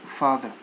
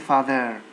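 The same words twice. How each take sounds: First: The weak vowel is a relaxed schwa sound. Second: The weak vowel is a full, clear vowel. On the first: The speaker calls it right. "They are pronounced uh" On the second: The speaker calls it wrong. "Don't say"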